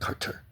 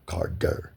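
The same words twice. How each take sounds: First: The middle consonant is a t sound. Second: The middle consonant is a d sound. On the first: The speaker calls it wrong. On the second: The speaker calls it right. "C A R D E R"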